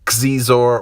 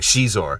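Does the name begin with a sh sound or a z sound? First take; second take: z sound; sh sound. First: The name begins with a z sound. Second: The name begins with a sh-like sound. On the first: "whether you say Zor" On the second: "I think the correct pronunciation actually has like a kind of an sh, so I kind of do a hybrid"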